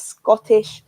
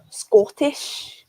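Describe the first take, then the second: First: Said in the usual way. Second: The word Scottish said in a light Scottish accent, pitched higher; quick Scottish accent demo on one word. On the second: Shown as a demonstration. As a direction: say Scottish the way a Scot would. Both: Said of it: "this is the Scottish accent".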